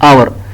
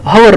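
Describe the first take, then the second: First: The word begins with a vowel sound. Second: The word begins with an h sound. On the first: The speaker calls it right. "एच का तो हम pronounce नहीं करते" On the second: The speaker calls it wrong. "हवर नहीं"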